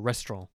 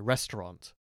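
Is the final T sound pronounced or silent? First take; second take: silent; pronounced. First: It sounds posh and French, without the final T. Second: The final T is pronounced.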